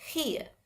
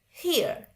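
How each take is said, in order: First: "here" British-style, final R silent; British demo of "here", R dropped. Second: "here" American-style with a little R at the end; American demo of "here", R sounded; American, slight R. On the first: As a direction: say "here" ending on the vowel, no R. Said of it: "Kalau orang British itu bacanya". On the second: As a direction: say "here" closing lightly on R. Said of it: "Ada R-nya dikit". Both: Shown as a demonstration.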